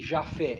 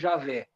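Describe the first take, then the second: First: The name has an f sound in the middle. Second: The name has a v sound in the middle. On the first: "nem Jafé" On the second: "não é Javé"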